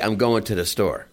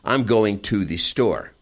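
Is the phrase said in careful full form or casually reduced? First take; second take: reduced; careful. First: The words run together in relaxed reduced form. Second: Every word is said fully and carefully. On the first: This is how people actually talk. The speaker calls it right. "they say" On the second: This is proper English that people rarely use. The speaker calls it wrong. "they don't say"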